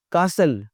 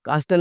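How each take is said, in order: First: "कासल" with S straight into L; silent T. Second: "कास्टल" with a T after S; T sounded. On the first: Teacher naming the palace word, T silent. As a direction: drop the T, "कासल". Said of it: "कास्टल नहीं लफ्ज़ होता". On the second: Teacher showing the mistake, T sounded. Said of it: "कास्टल नहीं". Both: Shown as a demonstration.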